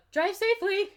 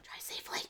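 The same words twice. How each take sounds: First: Loud, high, chirped farewell; loud and high-pitched send-off; botched quiet line. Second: Whispered farewell; hushed, hammed-up whisper; quietly. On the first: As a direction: call it out far too brightly for a quiet line. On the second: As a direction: whisper it softly, barely voiced. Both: A narrator's reading. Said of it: "he says quietly".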